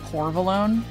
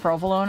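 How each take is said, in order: First: The first syllable is said as 'por'. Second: The first syllable is said as 'pro'. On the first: The speaker calls it wrong. "I keep pronouncing it wrong. I keep saying porvolone" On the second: The speaker calls it right. "instead of provolone"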